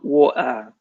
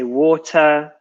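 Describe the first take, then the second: First: It is said in a Cockney accent. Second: It is said in a posh, careful accent. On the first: The speaker sounds working-class Londoner. The speaker calls it wrong. "not water" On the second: The speaker sounds like a lady. The speaker calls it right. "she needed to become a lady. So she needed to say water"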